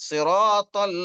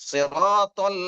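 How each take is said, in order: No difference in how they are said.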